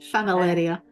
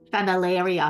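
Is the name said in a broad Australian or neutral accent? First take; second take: neutral; Australian. First: The name is said in a neutral accent. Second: The name is said in a broad Australian accent.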